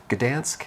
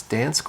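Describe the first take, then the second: First: "Gdansk" with the G voiced before the D; "Gdansk" with an audible hard G first; Gdansk with sounded G. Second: "Dansk" said with no G at the start; "Dansk" as one syllable, silent G; Dansk without the G. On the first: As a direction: say "Gdansk" as guh-DANSK. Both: Shown as a demonstration. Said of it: "I've heard it pronounced both ways".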